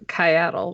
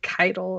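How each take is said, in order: First: The name includes an extra 'a' vowel sound. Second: The name lacks the extra 'a' vowel sound. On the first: This was the community's first guess. "firstly decided it was Kyatel" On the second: This is how the trailer said it. "where did the other A go"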